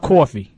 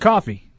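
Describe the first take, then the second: First: It is said in a New York accent. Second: It is said in a Boston accent. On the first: "Coffee would be from New York" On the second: "if you're from Boston. You'd say coffee"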